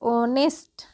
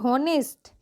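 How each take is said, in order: First: The word begins with a vowel sound. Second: The word begins with an h sound. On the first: The speaker calls it right. "एच का उच्चारण ओ होगा" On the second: The speaker calls it wrong. "जी नहीं"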